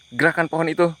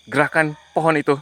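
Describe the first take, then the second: No difference in how they are said.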